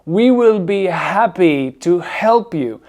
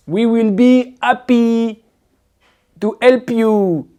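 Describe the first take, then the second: First: Slow, breathed H in "happy" and "help"; aspirated H. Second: High, slow French-accented "'appy" and "'elp"; mock a French speaker dropping H in "happy" and "help"; dropped H, mimicked. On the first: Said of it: "ils sont aspirés". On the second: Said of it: "Le H, Nicolas, le H". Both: Shown as a demonstration.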